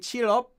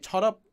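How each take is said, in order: First: The first word has an 'ee' vowel. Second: The first word has an 'o' vowel. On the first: This is the usual English form. "they could say cheer up" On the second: It is altered to sound better in a song. "they wanted to say chot up"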